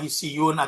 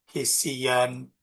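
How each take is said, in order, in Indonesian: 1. Kata ini diakhiri bunyi -un. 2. Kata ini diakhiri bunyi -an. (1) "Jangan dibaca hisiyun" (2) "ada alif"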